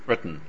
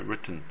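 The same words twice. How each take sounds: First: The T has no burst and releases through the nose. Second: The T is released with a burst from the mouth. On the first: The speaker calls it right. "破裂っぽい部分が全然出てこなくて、そのままN の方に行ってしまう" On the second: The speaker calls it wrong. "じゃなくて"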